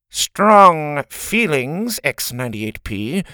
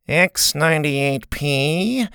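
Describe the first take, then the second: First: Slow, stressed nasal warning. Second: Nasal, slow stern principal. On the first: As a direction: lean into strong feelings. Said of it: "nasally voice". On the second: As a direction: drawl the name nasally. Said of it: "in her nasally voice". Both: Acted.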